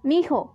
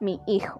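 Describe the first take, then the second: First: The two words merge into one reduced word. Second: The two words are said fully and separately. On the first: The speaker calls it wrong. "Palabras que se escriben o pronuncian de forma defectuosa" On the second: The speaker calls it right. "¿Correcto?"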